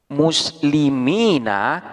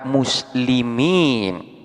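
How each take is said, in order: First: The word ends with a final vowel sound. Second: The word ends on a consonant, without a vowel. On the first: This is the original full form. "yang asalnya muslimina" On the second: This is the form used when pausing. "ketika diwakafkan akan dibaca muslimin"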